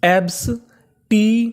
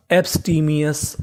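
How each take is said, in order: First: "एब्सटीमियस" slowly split into separate syllables. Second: Said in the usual way. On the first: Shown as a demonstration. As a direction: sound out "एब्सटीमियस" piece by piece with clear gaps. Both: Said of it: "तो meaning क्या बनी हमारी".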